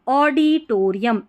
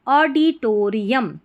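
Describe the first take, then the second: The two takes are said the same way.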